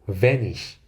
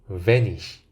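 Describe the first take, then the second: Both takes have the same delivery.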